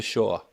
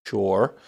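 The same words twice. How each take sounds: First: Shore without the r, like shaw; New England shore, r dropped; New England accent. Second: Shore with a clear final r; Shore, r carefully pronounced; corrected pronunciation. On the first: Real, not acted. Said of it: "every time I say it in my, my New England accent". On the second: Shown as a demonstration. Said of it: "feel like I wanna correct it".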